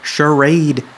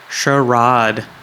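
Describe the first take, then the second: First: It is said with an American pronunciation. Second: It is said with a British pronunciation. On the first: The speaker calls it right. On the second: The speaker calls it wrong.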